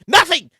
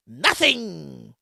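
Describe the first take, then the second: First: Said in the usual way. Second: Low, soft, drawn-out NOTHING; dropped-voice repeat. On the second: Real, not acted. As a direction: let "Nothing" sink and trail away. Drops the repeat for effect.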